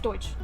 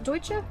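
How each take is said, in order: First: The word ends on the 'sch' sound. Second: The word ends with an extra vowel sound. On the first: "or is it just Deutsch? Is the E silent?" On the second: "Is it Deutsche"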